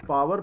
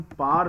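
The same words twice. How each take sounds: First: पावर with a clear "v" sound, paa-var; two-syllable पावर. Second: पार as one long "paar", no middle "v"; one-syllable पार. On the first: Teacher shows the form to avoid, पावर said as paa-var. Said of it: "pronounce नहीं करते". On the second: Teacher shows the preferred form, पार said as "paar". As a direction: say power as पार, a single syllable. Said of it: "इसे हम पार pronounce करते हैं". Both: Shown as a demonstration.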